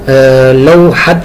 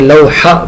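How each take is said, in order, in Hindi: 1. यह शब्द t की ध्वनि पर खत्म होता है। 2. यह शब्द h की ध्वनि पर खत्म होता है। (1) "ये लौहत नहीं पढ़ा जाता" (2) "बल्कि लौहा पढ़ा जाता है"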